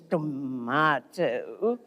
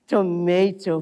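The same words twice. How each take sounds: First: It is said with a British pronunciation. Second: It is said with an American pronunciation. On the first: The speaker calls it right. "when I switch into the British English" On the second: The speaker calls it wrong. "it's not tomato"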